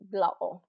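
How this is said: The T is replaced by a glottal stop. "more of the Cockney accent"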